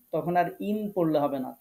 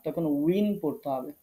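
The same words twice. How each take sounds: First: Said in the usual way. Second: উইন said slowly, rounded into win; slow, clear উইন; win ending. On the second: Shown as a demonstration. (ধীরে উইন উচ্চারণ)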